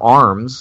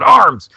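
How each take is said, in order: First: The word is said at normal volume. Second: The word is yelled out loudly.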